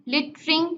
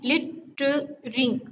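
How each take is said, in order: First: Said in the usual way. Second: लिटरिंग split into three separate sounds; syllable by syllable. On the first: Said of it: "तो इसके three syllables हैं". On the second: Shown as a demonstration. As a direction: break लिटरिंग up as lit-te-ring. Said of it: "लिटरिंग में three sounds आती हैं".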